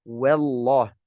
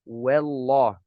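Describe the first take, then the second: Both takes have the same delivery.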